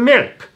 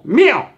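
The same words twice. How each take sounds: First: The final K sound is pronounced. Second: The final K sound is dropped. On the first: The speaker calls it wrong. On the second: The speaker calls it right.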